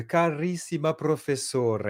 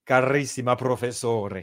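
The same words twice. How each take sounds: First: Slow, sung-out Italian Carissima professore; Italian accent. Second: Louder, hammed-up Italian Carissima professore; Italian accent. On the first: Retold or imitated. Italian colleagues greeting him, slow lilting Italian accent. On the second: Mocking the Italian colleagues, hammed-up Italian accent. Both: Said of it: "les Italiens quand ils m'écrivent".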